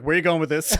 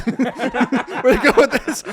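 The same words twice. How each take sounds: First: Said in the usual way. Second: Higher, louder and slow, laughing through the question; laughing disbelief. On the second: Retold or imitated. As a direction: crack up in disbelief. Repeats the quote laughing.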